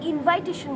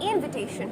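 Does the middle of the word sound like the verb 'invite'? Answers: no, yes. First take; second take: yes; no. First: The middle sounds like the verb invite. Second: The middle does not sound like invite. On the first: The speaker calls it wrong. "আমরা অনেকে এটাকে invitation বলে থাকি, invite ভার্বটা থেকে" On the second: The speaker calls it right. "But এটা কিন্তু invitation হবে"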